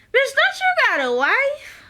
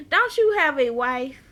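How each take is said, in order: First: High-pitched mock outrage; comic, pitched-up indignant question; incredulous outburst. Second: Said in the usual way. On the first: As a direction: call her out in squeaky disbelief. Mock outburst at show character.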